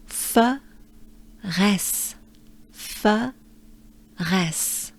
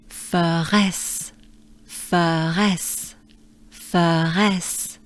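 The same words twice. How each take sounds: First: "F" e "res" separados por pausa; f and res separate. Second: "F" e "res" colados quase numa sílaba; f res merged. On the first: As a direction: diga "F", pause, depois "res". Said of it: "we break it down". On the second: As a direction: junte "F" a "res" sem pausa. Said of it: "now we try to merge them". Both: Shown as a demonstration.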